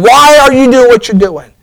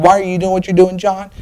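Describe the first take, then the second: First: Raised, higher pleading question to John; climactic question. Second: Softer, almost private repeat of the question; hushed question. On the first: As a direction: press the question to its peak. Preacher's climactic rhetorical question. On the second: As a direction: ask it again gently, close in. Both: Acted.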